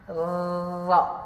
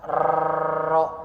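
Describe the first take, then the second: First: The r is trilled with the tongue tip. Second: The r is said plainly, like a Latin letter. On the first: The speaker calls it right. "ujung lidah, dilipat sedikit dan ditempelkan atau digetarkan" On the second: The speaker calls it wrong. "pemahaman tentang ro itu sepertinya ditulis uh, R dan O"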